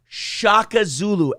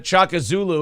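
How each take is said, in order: First: The name starts with a sh sound. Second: The name starts with a ch sound. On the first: The speaker calls it right. "Shaka Zulu. S H A K A Z U L U" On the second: The speaker calls it wrong. "It's not Chaka Zulu"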